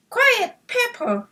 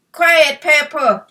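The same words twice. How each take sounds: First: A high, lightly voiced boy snapping at his dog; young owner scolding his noisy puppy; boy's shout. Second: Loud, slow call from a distance; father calling across the yard to the dog; dad calling out. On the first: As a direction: tell the puppy off, boyish and high. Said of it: "shouted Jimmy". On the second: Acted. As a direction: call out firmly from the house. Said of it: "called Jimmy's dad from the house".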